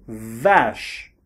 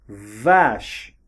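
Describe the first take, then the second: No difference in how they are said.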